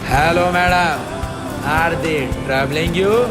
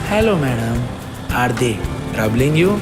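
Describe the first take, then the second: First: It is said with loud, high energy. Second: It is said softly and lovingly.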